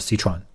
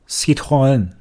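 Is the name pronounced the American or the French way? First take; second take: American; French. First: It is pronounced the American English way. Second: It is pronounced the French way.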